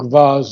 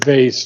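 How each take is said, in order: First: The word is said with a British pronunciation. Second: The word is said with an American pronunciation. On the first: This form sounds more beautiful. "I think vase is more beautiful. So let's stay with the British" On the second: This is the common everyday form. "I'm an American and I hear vase all the time"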